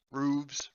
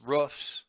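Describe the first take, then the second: First: "roofs" said as "rooves", long oo and vz. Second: "roofs" ending in an unvoiced fs, short oo. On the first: GM trying the other plural, "roofs" said as "rooves". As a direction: say "roofs" with a long oo and buzzing V ending. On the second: GM trying a plural for listed exits, "roofs" with short oo and F. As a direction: say "roofs" with the short vowel of "foot" and an F. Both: Shown as a demonstration. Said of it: "There's the plural of a roof".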